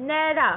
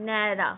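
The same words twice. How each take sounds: First: ন্যাড়া said as spoken, "nyara" with the open e sound; spoken pronunciation. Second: ন্যাড়া read as the written form "nera", lower pitch. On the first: Teacher shows students how ন্যাড়া is spoken aloud. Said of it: "সেখান থেকে আমরা বলছি কি". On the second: Teacher contrasts the written form of ন্যাড়া for students. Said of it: "লেখার সময় আমরা কি লিখছি". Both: Shown as a demonstration.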